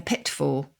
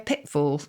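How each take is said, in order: First: The middle t is clearly released. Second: The middle t is a glottal stop. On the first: People no longer say it this way. "rather than a pitfall" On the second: This is how people say it now. "We say a pitfall"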